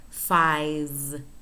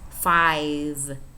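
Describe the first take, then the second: No difference in how they are said.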